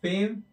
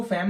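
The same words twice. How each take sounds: First: फेम with a long 'ay' vowel; फेम rhyming with game; correct pronunciation. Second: फेम with a short open 'fam' vowel; wrong pronunciation. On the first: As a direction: say फेम as English 'fame'. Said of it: "इसको सेम पढ़ना है". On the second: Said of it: "इसको फेम नहीं पढ़ना है". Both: Shown as a demonstration.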